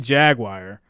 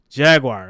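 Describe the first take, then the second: First: It sounds like two words, jag and wire. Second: The syllables flow together smoothly in one word. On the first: This is how people from New York say it. "it sounds like the word jag and then the word wire" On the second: This is how others say it is supposed to sound. "it's supposed to just flow out"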